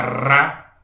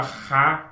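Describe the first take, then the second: First: "ra" with a strong trilled R, louder; rolled R demo. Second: "ra" with a breathy, throaty H-like R; soft R demo. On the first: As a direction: roll the R hard on "ra". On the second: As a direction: say "ra" with the R as an aspirated H. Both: Shown as a demonstration. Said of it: "eu posso falar ra".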